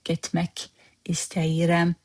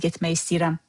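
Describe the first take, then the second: First: Every sound of gitmek is said in full. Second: The end of gitmek is reduced to a y. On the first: This is the formal written form. "That's the official way of writing it" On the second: This sounds more native in speech. "Gitmek drops and turns into y"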